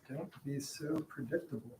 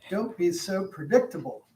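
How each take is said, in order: First: It is said quietly. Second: It is said loudly.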